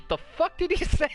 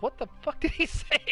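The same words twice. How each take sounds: First: High, laughing disbelief; mimicking Steve Harvey's shocked outburst. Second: High, laughing disbelief; mock stunned host outburst, higher and giggling; shocked Steve Harvey. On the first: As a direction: blurt it out in stunned disbelief. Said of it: "just looks at the audience and just says". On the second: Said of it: "he's just like".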